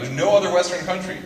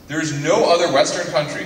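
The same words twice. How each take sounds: First: "no" pitched up and stressed; stress on no, higher. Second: No stressed, falling at the end. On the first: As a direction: repeat it, lifting "no" higher. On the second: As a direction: lean on "no" to make the point. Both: Real, not acted.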